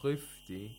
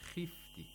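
First: The kh is pronounced with heavy thickness. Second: The kh is pronounced with light thickness. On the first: The speaker calls it wrong. "that's incorrect" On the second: The speaker calls it right. "We have to apply the lowest level of tafkhim"

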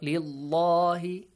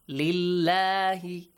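First: The L sound is heavy and full. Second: The L sound is light and thin. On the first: The speaker calls it wrong. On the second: The speaker calls it right. "it's pronounced lightly"

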